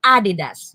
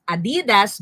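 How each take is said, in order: First: "Adidas" as AH-di-das; accent the opening A of "Adidas"; stress on first syllable. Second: "Adidas" as a-DEE-das; stress on second syllable. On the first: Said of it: "because the accent is in the first syllable". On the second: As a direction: lean on the middle syllable DI in "Adidas". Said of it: "You don't read it as". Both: Shown as a demonstration.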